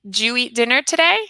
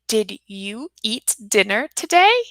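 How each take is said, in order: First: The two words blend into one syllable, jew. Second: Both words are pronounced fully and separately. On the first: The speaker calls it right. "we say" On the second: The speaker calls it wrong. "we don't say"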